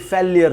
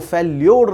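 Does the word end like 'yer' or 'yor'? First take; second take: yer; yor. First: The word ends with a 'yer' sound. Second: The word ends with a 'yor' sound. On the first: The speaker calls it right. "Right pronunciation" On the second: The speaker calls it wrong. "वो फेल्योर नहीं होती"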